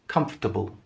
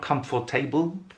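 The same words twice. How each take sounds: First: The word is said with fewer syllables. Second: The word is said with more syllables. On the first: The speaker calls it right. "It doesn't have that many syllables when we pronounce it. It's just comfortable" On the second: The speaker calls it wrong. "So it's not comfortable"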